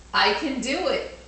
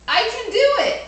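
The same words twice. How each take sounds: First: Said in the usual way. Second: Much higher, louder triumphant cheer; I can do it, cheered high and loud; excited. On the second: Shown as a demonstration. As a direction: shout it out like a proud kid. Repeated answer, second take.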